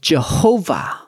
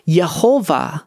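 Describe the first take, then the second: First: The name begins with a J sound. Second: The name begins with a Y sound. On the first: This is the common English form of the name. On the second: This is the original Hebrew form of the name.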